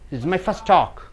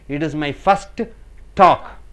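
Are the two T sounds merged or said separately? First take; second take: merged; separate. First: The two T sounds merge into one. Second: Both T sounds are pronounced separately. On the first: The speaker calls it right. "one T sound is enough" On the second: The speaker calls it wrong. "No need to say double T"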